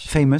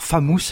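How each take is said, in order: First: "famous" said the English way, "fay-meuss"; anglicised "famous" from a French speaker; English-style pronunciation. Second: "famous" said the French way, "fa-mousse"; Frenchified "famous" with an open "fa"; French-style pronunciation. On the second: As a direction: read "famous" as if it were a French word. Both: Shown as a demonstration. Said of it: "famous si vous voulez".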